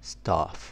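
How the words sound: It is said in a British accent. "بالانجليزي البريتش بنقول staff"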